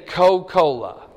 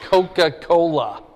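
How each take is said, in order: First: It is said in a Southern Georgia accent. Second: It is said in a general American accent. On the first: "They say Coca-Cola" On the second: "they don't say Coca-Cola"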